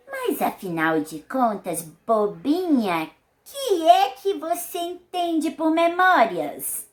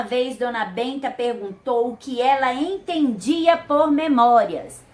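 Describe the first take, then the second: First: Higher, slower, fond grandmother voice; slow, teasing old-lady scolding; Dona Benta's voice. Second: Said in the usual way. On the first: Acted. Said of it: "imitando a voz dos personagens". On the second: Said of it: "esse trecho pode ser escrito de outra forma".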